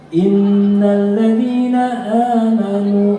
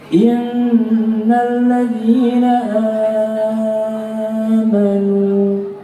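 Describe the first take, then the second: First: The long vowel in amanu is held two beats. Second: The long vowel in amanu is held six beats. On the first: "berarti dua" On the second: "berarti enam"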